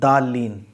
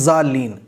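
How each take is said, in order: First: The word begins with a d sound. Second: The word begins with a z sound. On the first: "दाल जब हम पढ़ते हैं तो जबान हमारी आगे लगती है" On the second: "जब हम जा पढ़ते हैं तब भी जबान हमारी आगे लगती है"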